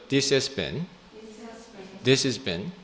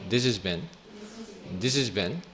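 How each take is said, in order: No difference in how they are said.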